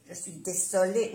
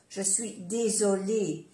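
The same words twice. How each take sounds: First: "désolé" mispronounced with an unvoiced s; wrong S sound. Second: "désolé" corrected with a voiced z; soft Z. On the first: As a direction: say "désolé" with a hissed s, the mistake demonstrated. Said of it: "no hay que decir je suis désolé". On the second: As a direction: say "désolé" with a clear buzzing z. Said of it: "como si fuera una Z suave". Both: Shown as a demonstration.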